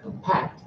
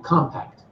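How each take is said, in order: First: PACT in Compact stressed, verb form; second-syllable stress. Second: COM in compact stressed, noun form; first-syllable stress. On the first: Teacher contrasts two meanings, end-stressed verb Compact. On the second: Teacher contrasts two meanings, front-stressed noun compact. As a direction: punch the start of compact. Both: Shown as a demonstration. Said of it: "two different meanings".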